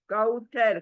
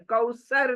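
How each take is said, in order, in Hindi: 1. बीच का व्यंजन एक कोमल 'th' ध्वनि है। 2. बीच का व्यंजन एक सादा 's' ध्वनि है। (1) "कौथर, कौसर नहीं" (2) "इट्स नॉट कौसर। गलत है।"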